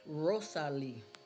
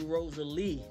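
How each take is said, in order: First: The name is said with Spanish sounds. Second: The name is said with English sounds. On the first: The speaker calls it right. "That's how we say it in Spanish" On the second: The speaker calls it wrong. "like Rosa with the L E E, but it's not"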